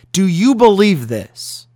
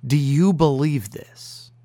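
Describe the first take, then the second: First: Slow, louder "Do you believe this?"; loud challenge. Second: Slow "Do you believe this?" with weight on "you"; penetrating question. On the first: Acted. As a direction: hammer home "Do you believe this?" loudly and slowly. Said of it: "repeated question, now louder". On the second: Retold or imitated. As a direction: ask "Do you believe this?" slowly, pressing on "you". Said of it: "he asks this penetrating question".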